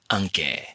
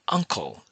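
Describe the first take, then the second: First: It is said with a Burmese pronunciation. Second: It is said with an English pronunciation. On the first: "use a Burmese-centric pronunciation to sound more Burmese" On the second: "Instead of pronouncing uncle"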